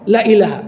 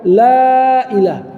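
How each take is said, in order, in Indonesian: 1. Vokal pada 'la' dibaca pendek. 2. Vokal pada 'la' dibaca panjang. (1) "la-nya tadi pendek" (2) "ada mat di situ"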